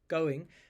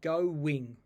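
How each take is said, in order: First: The two vowels join without a w sound. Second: A w sound links the two vowels. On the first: "if you look in the dictionary, we'll say it's just going" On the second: "they'll put in a w insertion between those two vowel sounds"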